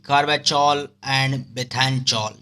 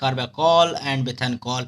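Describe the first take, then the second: First: The 'ch' is said as in 'choli'. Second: The 'ch' is said as a hard 'k'. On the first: It is a memory aid, not the real pronunciation. "याद रखने के लिए यहाँ पे चोली चोली चोली बोल रहे हैं" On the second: This is the actual pronunciation of the drug names. "इसका प्रोनाउंसिएशन अलग होगा"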